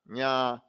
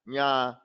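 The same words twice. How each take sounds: Both takes have the same delivery.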